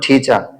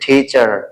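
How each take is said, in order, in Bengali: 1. এটা ব্রিটিশ উচ্চারণে বলা হয়েছে। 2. এটা আমেরিকান উচ্চারণে বলা হয়েছে। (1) "ব্রিটিশরা বলবে টিচার" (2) "আমেরিকানরা বলবে হচ্ছে টিচার"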